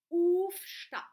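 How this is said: It is said the Swiss way with 'uf'. "die Schweizer sagen zum Beispiel"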